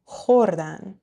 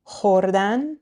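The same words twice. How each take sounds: First: خوردن with the first syllable khor stressed; next-to-last-syllable stress. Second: خوردن with the final -dan stressed and rising; last-syllable stress. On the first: Teacher comparing the they form, خوردن stressed on khor. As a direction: punch the start of خوردن, KHORdan. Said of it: "Next to last syllable". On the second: Teacher comparing the infinitive, خوردن stressed on its last syllable. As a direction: say خوردن as khorDAN. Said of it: "So compare these two, the infinitive". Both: Shown as a demonstration.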